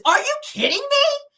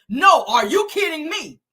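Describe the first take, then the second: First: Very high, loud squeal; shrieky mock disbelief; mock incredulous outrage. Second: Loud, slower, higher angry comeback; retold indignant retort, each word pushed; cutting her off. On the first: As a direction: imitate an outraged daughter, voice shooting way up. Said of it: "So Lexi says". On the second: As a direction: throw the question back forcefully. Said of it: "cut her off and says".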